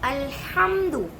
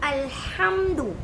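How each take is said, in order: Both takes have the same delivery.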